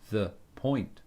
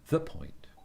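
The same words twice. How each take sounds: First: The phrase is said flat, with a rigid rhythm. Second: The phrase is said with a loose, swinging rhythm. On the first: The speaker calls it wrong. "not the point" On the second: The speaker calls it right. "It swings"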